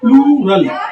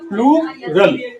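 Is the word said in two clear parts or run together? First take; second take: run together; two parts. First: The word is run together, not in two parts. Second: The word is said clearly in two parts. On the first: The speaker calls it wrong. "कुछ लोग अजीब अजीब pronounce करते हैं" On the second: The speaker calls it right. "ये दो भाग में प्लूरल, इस तरह से"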